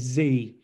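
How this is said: The letter is said the American way, "zee".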